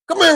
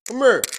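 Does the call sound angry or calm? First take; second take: angry; calm. First: It is said in an angry, demanding tone. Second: It is said in a calm, relaxed tone. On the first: The caller is upset and trouble is coming. "when Dad is in a, you know, in a mood" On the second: The caller is not upset. "that wasn't a bad come here"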